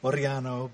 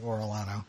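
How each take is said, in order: First: The name is pronounced with Spanish sounds. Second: The name is pronounced with English sounds. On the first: This is the name's original form. The speaker calls it right. "It's actually Oriano" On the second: This is the simplified everyday form. The speaker calls it wrong. "so I just say Orlano"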